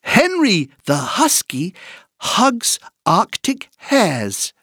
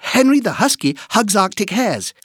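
First: The sentence is said at a moderate pace. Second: The sentence is said at a fast pace.

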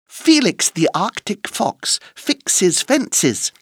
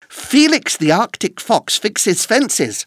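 First: It is said at a slow, careful pace. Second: It is said at a faster pace.

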